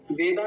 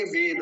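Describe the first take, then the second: First: वेदा ending on long "aa"; mistaken long ending. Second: वेद as vay-da with a short ending; short final a. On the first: Teacher showing what not to say, long-ending demo. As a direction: lengthen the last vowel of वेदा. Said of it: "वेदा नहीं बोलेंगे". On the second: Teacher correcting the word, short-ending demo. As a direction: keep the last vowel of वेद brief. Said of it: "बस इतना है". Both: Shown as a demonstration.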